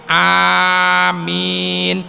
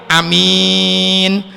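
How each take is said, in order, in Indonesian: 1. Vokal pertama panjang, m-nya tunggal. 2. Vokal pertama pendek, m-nya tunggal. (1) "Dipanjangkan hamzahnya, amimnya ditahfif" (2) "hamzahnya dipendekin, mimnya ditahfif"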